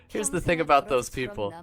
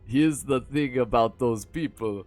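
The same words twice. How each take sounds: First: It is read in the reader's ordinary accent. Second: It is read in an attempted Russian accent.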